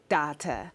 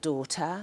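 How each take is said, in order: First: The word is said in a Jamaican accent. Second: The word is said in a standard British accent. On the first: "how a Jamaican would say" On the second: "it would be easy to call it daughter"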